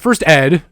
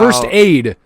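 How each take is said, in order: First: The second word has a short 'eh' vowel. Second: The second word has an 'ay' vowel. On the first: The speaker calls it wrong. "Not first ed" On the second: The speaker calls it right.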